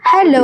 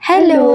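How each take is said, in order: First: The voice sounds scary and menacing. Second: The voice has an echo effect added. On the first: "ரொம்ப terror voice மாரி இருக்கு" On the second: "echo அடிக்கிற மாரி இருக்கா?"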